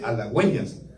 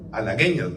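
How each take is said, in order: First: The u before the e is sounded. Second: The u before the e is silent. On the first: "cuando lleva los dos puntitos se dice halagüeñas" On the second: "Si no llevara los puntitos se diría halagueñas"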